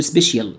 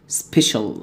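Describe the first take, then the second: First: "سبيشال" with a b and a full vowel, "sbeshyel"; mispronounced special. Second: Said in the usual way. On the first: Shown as a demonstration. Teacher showing the student mistake, "سبيشال" as "sbeshyel". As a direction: say "سبيشال" wrongly as "sbesh-yel". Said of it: "وهتقول". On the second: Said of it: "وهتقول سبيشال".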